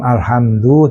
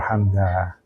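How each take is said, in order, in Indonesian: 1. Kata ini berakhir dengan vokal 'u'. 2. Kata ini berakhir dengan vokal 'a'.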